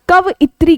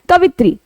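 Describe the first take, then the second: First: It is said with four syllables, ka-va-yi-tri. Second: It is said with three syllables, ka-vi-tri. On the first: The speaker calls it right. "शुद्ध शब्द लिखेंगे तब ये शब्द हमारा कवइत्री कहलाता है" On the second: The speaker calls it wrong. "हम बोलते भी क्या है"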